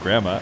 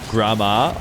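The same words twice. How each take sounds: First: The name is said with an American accent. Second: The name is said with an Italian-style accent. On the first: The speaker calls it wrong. "different than grandma" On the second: The speaker calls it right. "the way you say it when you're like pretending you're speaking Italian"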